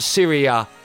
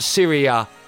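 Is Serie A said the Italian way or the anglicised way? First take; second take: anglicised; anglicised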